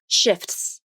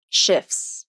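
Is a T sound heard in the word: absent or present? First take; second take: present; absent. First: The T sound is clearly pronounced in the word. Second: The T sound is dropped from the word. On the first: The speaker calls it wrong. "If I were to say shifts with the T sound" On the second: The speaker calls it right. "there is no T sound in the word shifts"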